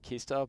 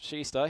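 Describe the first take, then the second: First: The name begins with a hard K sound. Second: The name begins with an SH sound. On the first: This is how the spelling suggests it is said. The speaker calls it wrong. "it may look like Kista" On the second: This is how local people say it. The speaker calls it right. "but pronounced Shista here for the locals"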